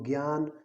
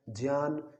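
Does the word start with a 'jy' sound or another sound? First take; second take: other; jy. First: The first cluster is not said as 'jy'. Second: The first cluster is said as 'jy'. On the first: The speaker calls it wrong. "नहीं बोलना है" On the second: The speaker calls it right. "इनका शुद्ध उच्चारण होता है"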